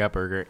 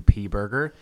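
First: The first word is said as the word up. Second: The first word is said as two letters. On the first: The name is misread as the ordinary word up. The speaker calls it wrong. "I thought, honestly, that it was called the Up Burger" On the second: The name stands for Upper Peninsula. The speaker calls it right. "in the bitchiest, most condescending tone, she's like"

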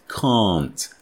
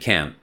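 First: It is said with a British accent. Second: It is said with an American accent. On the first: "British English, you know, we pronounce ... the negative can't. Can't. Very English" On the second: "for American English speakers, it sounds more the same"

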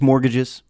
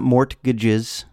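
First: The T sound in the middle is silent. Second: The T sound in the middle is pronounced. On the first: The speaker calls it right. "You don't pronounce the T. just mortgages" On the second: The speaker calls it wrong. "It's not mortgages"

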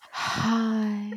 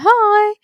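First: It is said in a breathy, intense voice. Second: It is said in a plain, unaware voice.

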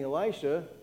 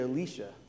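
First: The name is said the familiar English way. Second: The name is said the Hebrew way. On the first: The speaker calls it wrong. "We've been saying Elisha" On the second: The speaker calls it right. "It's actually Elisha, looking at the Hebrew"

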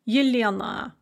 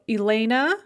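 First: The name begins with a y sound. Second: The name begins directly with a vowel sound. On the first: This is the Russian form of the name. "Yelena in Russian" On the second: This is the English form of the name. "Elena in English"

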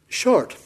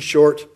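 First: It is said in a Scottish accent. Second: It is said in an American accent. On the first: "Not if you're Scottish" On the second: "in a typical American pronunciation"

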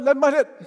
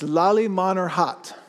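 First: The name is said fast with syllables squeezed together. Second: The name is said slowly with every syllable. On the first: "I guess the key is to just say it fast enough and it just sounds right" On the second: "That's a mouthful right there, but they don't say it like that"

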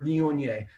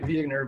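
First: The word is pronounced in a French way. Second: The word is pronounced in an anglicized way. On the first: The speaker calls it right. "of course the waiter" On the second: The speaker calls it wrong. "the next morning it was back to"

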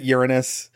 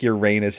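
First: It begins like the word urine. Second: It does not begin like the word urine. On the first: "because then it sounds like urine" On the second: "That's so weird. I just said"

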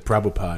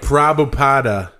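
First: The final vowel is dropped at the end. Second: The final vowel is pronounced at the end. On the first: The speaker calls it right. "They don't say the last A. They just say" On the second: The speaker calls it wrong. "It looks like"

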